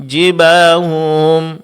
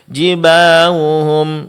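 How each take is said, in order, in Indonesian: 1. Huruf h-nya samar dan terdengar seperti w. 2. Huruf h-nya samar dan terdengar seperti w.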